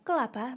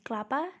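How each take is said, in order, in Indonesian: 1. Vokal memisahkan dua konsonan pertama. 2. Dua konsonan pertama membentuk gugus. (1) "silabel berpola K F" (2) "dijadikan silabel berpola K K F"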